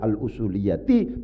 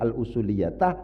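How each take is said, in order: First: The word ends with an i vowel. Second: The word ends with an a vowel. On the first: The speaker calls it right. "bacaannya adalah al-usuliyati" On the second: The speaker calls it wrong. "bukan al-usuliyatah"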